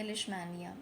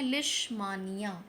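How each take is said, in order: First: लिशमानिया said with "may" in the middle; lish-may-niya variant of लिशमानिया; alternative pronunciation. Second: लिशमानिया said with a long "maa" in the middle; broken lish-maa-niya for लिशमानिया; first pronunciation option. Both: Shown as a demonstration. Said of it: "जो भी आप better pronounce करना चाहें".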